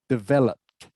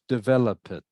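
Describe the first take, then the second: First: The ending is said without a vowel sound. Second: The ending is said with an extra vowel sound. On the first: The speaker calls it right. "the last E is silent" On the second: The speaker calls it wrong. "Not develop it"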